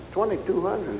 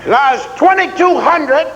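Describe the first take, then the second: First: Said in the usual way. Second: Sergeant's bark. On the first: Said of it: "that's it". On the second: Retold or imitated. Drill sergeant barking time.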